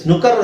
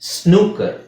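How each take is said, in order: First: The first vowel is short. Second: The first vowel is long. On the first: The speaker calls it wrong. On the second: The speaker calls it right.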